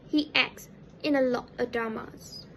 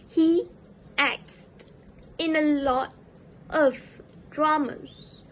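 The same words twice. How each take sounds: First: The t sound in acts is dropped. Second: The t sound in acts is pronounced. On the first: "the participle pronounce it as" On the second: "the standard form of the pronunciation"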